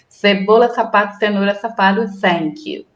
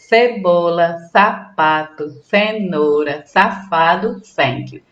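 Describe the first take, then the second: First: It is said very fast. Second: It is said at a normal pace.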